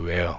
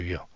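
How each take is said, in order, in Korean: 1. 첫 음절은 'weh'처럼 들립니다. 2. 첫 음절은 'wee'처럼 들립니다. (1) "웨어라고 합니다" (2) "위어라고 썼는데"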